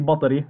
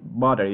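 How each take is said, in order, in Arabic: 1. الـ t اللي في النص قوي وتقيل. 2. الـ t اللي في النص خفيف وناعم. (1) "اوعى تحكي بطري مثل المصاري" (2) "بخفف التي لما تكون دبل تي دائما بخفف"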